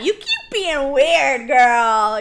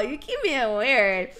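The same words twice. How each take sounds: First: Loud cheering. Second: Said in the usual way. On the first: Real, not acted. Cheering Robin on loudly.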